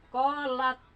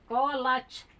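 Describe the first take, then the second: First: The final t ends with audible released air. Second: The final sound turns into a ch sound. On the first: The speaker calls it right. "Kolat tapi udara lepas" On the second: The speaker calls it wrong. "Jadi dia kira berubah ke C. Jadi kolaj. Itu salah"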